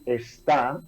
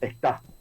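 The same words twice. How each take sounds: First: The opening e is fully pronounced. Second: The opening e is dropped, with breathy aspiration. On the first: "en vez de decir está" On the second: "reducir la E inicial seguido de una aspiración"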